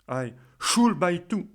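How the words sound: The stress is on the word should. Questioning why there is any obligation to buy. "je vais insister sur le mot should"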